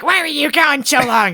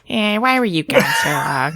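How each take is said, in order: First: It is said in a higher voice. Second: It is said in a lower voice.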